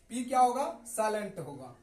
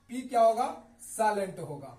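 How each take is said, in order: Both takes have the same delivery.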